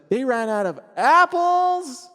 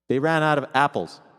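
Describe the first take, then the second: First: The word apples is shouted loudly. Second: The word apples is said plainly, without emphasis. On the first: "What if apples was the loudest word? ... if you're shouting it like that" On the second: "if I just write apples in all lowercase"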